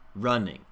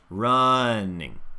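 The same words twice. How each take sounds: First: Both syllables get equal stress. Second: The stress is on the first syllable. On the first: The speaker calls it wrong. "I'm hearing these as pretty equal stress" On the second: The speaker calls it right. "for the unstressed syllable, I really don't create any space"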